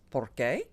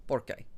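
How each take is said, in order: First: "por qué" with a rising, questioning end; slow "por qué", tune going up; questioning inflection. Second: "por qué" as a statement, without the questioning lift; "por qué" settled at the end, no question; answering inflection. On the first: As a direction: lift the end of "por qué" like asking why. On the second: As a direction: say "por qué" like giving the reason. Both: Shown as a demonstration. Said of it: "your inflection's different".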